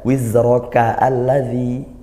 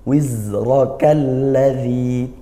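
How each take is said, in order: First: A separate a is sounded before lladzi. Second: The words run together without a separate a. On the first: The speaker calls it wrong. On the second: The speaker calls it right. "A-nya tidak dibaca"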